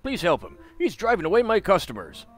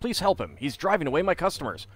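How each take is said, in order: First: It is read in a put-on character voice. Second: It is read in the speaker's ordinary voice. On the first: The speaker calls it right. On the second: The speaker calls it wrong.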